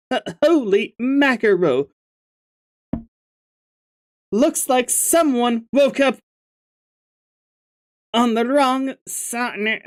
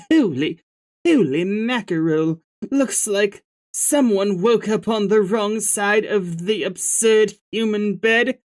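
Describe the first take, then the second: First: Silly troll voice, slightly higher; stupid voice. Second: A light hint of a British accent, troll; lightly put-on British accent. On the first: Acted. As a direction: ham up a goofy troll voice. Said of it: "giving you a stupid voice before". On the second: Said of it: "should I give you, like, a British voice?".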